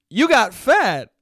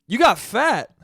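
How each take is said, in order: First: Higher, louder and slow, deadpan bluntness; blunt uncle. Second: Higher, louder, laughing through it; can't hold back a laugh at the uncle's line; laughing uncle quote. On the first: Uncle Joe greeting dad bluntly, slow loud deadpan. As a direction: land each word like a blunt older brother. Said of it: "just looks at my dad and goes". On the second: Son retelling uncle's blunt greeting, laughing. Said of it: "the first thing he says to my dad is". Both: Retold or imitated.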